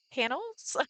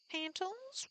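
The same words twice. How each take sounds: First: Said in the usual way. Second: Pantals, with a T sound in the middle; misread word. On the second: Real, not acted. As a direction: reads pantals instead of panels. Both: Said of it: "I don't know why I said it like that".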